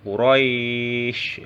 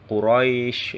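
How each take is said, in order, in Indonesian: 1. Vokal panjang ditahan empat harakat. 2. Vokal panjang ditahan dua harakat. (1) "Atau empat harokat ya" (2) "yaitu dua harokat"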